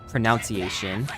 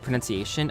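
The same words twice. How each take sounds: First: The second syllable sounds like 'noun'. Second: The second syllable sounds like 'nun'. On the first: The speaker calls it wrong. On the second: The speaker calls it right.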